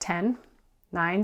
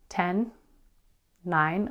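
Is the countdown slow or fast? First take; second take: fast; slow. First: The countdown is said quickly. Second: The countdown is said slowly.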